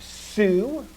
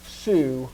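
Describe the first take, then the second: First: "su" drawn out with a rising pitch; long, rising "su"; accented su. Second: Unstressed, falling "su"; unaccented su. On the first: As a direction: lift and stretch "su" to show the accent. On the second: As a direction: let "su" drop, with no accent on it. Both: Shown as a demonstration.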